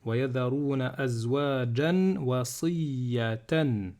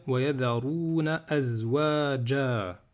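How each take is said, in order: First: "azwajan" keeps its n, flowing into "wasiyatan"; slow reading joining "azwajan wasiyatan"; linked tanwin. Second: "azwaja" ending on a long open a; slow recitation, no n closing "azwaja"; alif at stop. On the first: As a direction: sound the n of "azwajan" and carry on. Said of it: "si je fais la liaison". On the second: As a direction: stop on "azwaja" with the last a held. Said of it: "si je m'arrête". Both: Shown as a demonstration.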